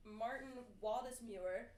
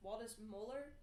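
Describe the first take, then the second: First: "Waldseemüller" ending like "myoo-er"; unsure pronunciation. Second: "Waldseemüller" ending like "moh-ler", as a question; questioning pronunciation. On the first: Reading a cartographer's name, "Waldseemüller" ending in "myoo-er". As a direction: say "Waldseemüller" with a "myoo" sound near the end. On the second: Checking a name with friends, "Waldseemüller" ending in "moh-ler". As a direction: try "Waldseemüller" with "moh" for the third part. Second try at the same name. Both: Shown as a demonstration.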